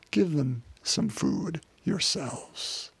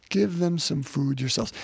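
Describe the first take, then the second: First: Very slow, softer, each word weighed. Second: Said in the usual way. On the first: Shown as a demonstration. Jesus telling the disciples to feed the crowd, slow and soft. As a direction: let Jesus' command land gently and slowly.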